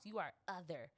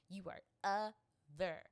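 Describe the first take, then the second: First: Said in the usual way. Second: OTHER split into two slow, loud syllables; emphatic stress. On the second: Retold or imitated. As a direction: hammer "other" syllable by syllable, drawn out. Repeats label, syllables split for emphasis.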